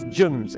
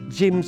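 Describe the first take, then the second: First: The word is said in a New Zealand accent. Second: The word is said in an Australian accent. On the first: "it's gyms" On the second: "It's not gyms over there"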